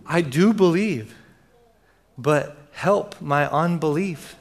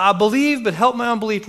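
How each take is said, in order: First: Slow, halting confession, acted; a father's measured, earnest plea; cried-out plea. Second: High, urgent outburst in one rush; acting a desperate father crying out. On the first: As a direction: plead slowly, pausing before the admission. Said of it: "The father cried out". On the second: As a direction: blurt the plea, pitched high. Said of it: "In times of desperation, the father cried out".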